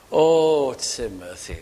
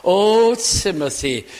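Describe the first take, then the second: First: An aching, hushed appeal to Timothy; heartfelt plea. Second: A loud, pained call to a dear friend; aching cry. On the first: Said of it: "Paul now writing this with all his heart". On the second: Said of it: "almost the ache in his heart". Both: Retold or imitated.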